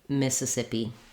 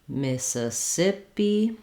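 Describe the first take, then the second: First: The word is said quickly and smoothly. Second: The word is said at a medium speed.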